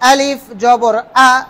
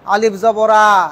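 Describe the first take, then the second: First: The final vowel is said clearly as its own sound. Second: The final vowel is slurred onto the previous word. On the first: The speaker calls it right. "একদম স্পষ্ট" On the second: The speaker calls it wrong. "এভাবে না"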